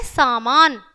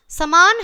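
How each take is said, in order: First: सामान with a long first "aa": saa-maan; correct सामान. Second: समान with a short first "a": sa-maan; mispronounced समान. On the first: Teacher showing pupils the correct word, clearly pronounced सामान. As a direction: say सामान with both vowels held long. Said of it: "यहाँ शुद्ध उच्चारण है". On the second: Teacher showing pupils the missing matra, mispronounced समान. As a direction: say समान wrongly, clipping the first vowel to "sa". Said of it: "तो क्या है ये अशुद्ध है". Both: Shown as a demonstration.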